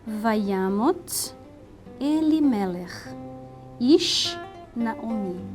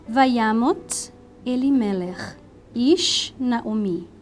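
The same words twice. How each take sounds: First: It is read a little more slowly. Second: It is read at a normal, quicker pace.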